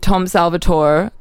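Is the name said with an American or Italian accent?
American. The name is said the American way.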